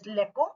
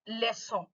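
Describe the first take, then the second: First: The c is pronounced as a k sound. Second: The c is pronounced as an s sound. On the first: The speaker calls it wrong. "you are not supposed supposed to pronounce it as leco" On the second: The speaker calls it right. "but leçon. Why? Because it has a exocedil"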